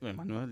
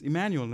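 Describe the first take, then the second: First: The name has a non-English pronunciation. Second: The name has an English pronunciation.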